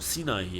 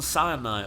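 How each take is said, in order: First: It is pronounced the German way. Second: It is pronounced the usual English way.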